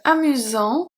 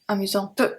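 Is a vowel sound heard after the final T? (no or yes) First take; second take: no; yes. First: It ends on the T sound, no vowel after. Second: An extra vowel sound follows the final T. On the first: The speaker calls it right. "Here the T is pronounced, but not the E" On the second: The speaker calls it wrong. "we don't say that"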